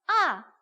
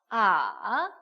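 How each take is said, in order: First: The pitch falls sharply from high to low. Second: The pitch dips low and then rises. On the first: "사성까지 있어요" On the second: "삼"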